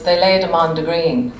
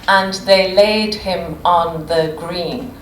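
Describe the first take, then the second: First: The phrase is said quickly, with words run together. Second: The phrase is said at a normal, careful pace.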